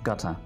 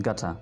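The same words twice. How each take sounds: Both takes have the same delivery.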